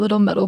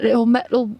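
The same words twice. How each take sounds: First: It is said in the speaker's normal accent. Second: It is said in a put-on British accent.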